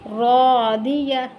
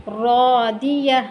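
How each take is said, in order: The two takes are said the same way.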